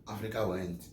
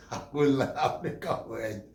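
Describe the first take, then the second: First: Said in the usual way. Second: Very slow, stretched mock announcement; drawn out. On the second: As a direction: drag every sound of it out for laughs. Drawn out comic repeat.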